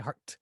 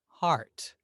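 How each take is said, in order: First: The vowel is short and clipped. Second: The vowel is long and drawn out. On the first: The speaker calls it wrong. "but we don't say heart" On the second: The speaker calls it right. "We say heart"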